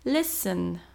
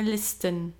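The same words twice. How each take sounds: First: The T sound is silent. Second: The T sound is clearly pronounced. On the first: The speaker calls it right. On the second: The speaker calls it wrong.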